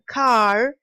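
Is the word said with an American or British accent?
American. The final r sound is pronounced. "the American car"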